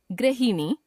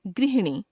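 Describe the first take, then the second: First: गृहिणी as "gra-hinee"; mispronounced ri. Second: Said in the usual way. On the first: Shown as a demonstration. Teacher showing a common error, गृहिणी with ra for ri. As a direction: put "ra" for "ri" in गृहिणी. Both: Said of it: "र, री संबंधी अशुद्धियां".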